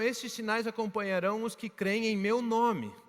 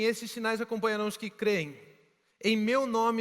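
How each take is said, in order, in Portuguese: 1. Continua sem pausa depois de creem. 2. Há uma pausa logo depois de creem. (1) "No original não existem aqueles dois pontos ali" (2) "ele não diz assim"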